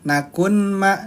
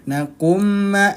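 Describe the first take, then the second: First: A separate n sound is heard before m. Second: The n sound merges fully into the m. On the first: The speaker calls it wrong. "Bukan nun" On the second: The speaker calls it right. "dimasukkan ke huruf mim"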